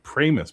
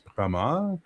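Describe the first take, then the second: First: The name is said with a plain English pronunciation. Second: The name is said with a French pronunciation. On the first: This is how the owner wants it said. The speaker calls it right. "He wants you to pronounce it Pramus" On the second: This is how it would be said in the name's origin language. The speaker calls it wrong. "that's how it would be said in French"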